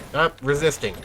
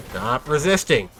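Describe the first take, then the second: First: Police officer impression. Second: Slow stern cop command; police officer impression. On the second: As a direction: bark it like a cop. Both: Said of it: "my daily police officer impression".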